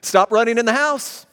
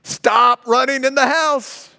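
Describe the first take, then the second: First: Raised parent's warning; firm parental command; stern command. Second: Higher, louder, slow and stern; slow, louder second warning; emphatic repeat. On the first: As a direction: call it out like a parent. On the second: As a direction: hammer it home like an exasperated parent. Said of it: "It's emphasis". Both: Shown as a demonstration.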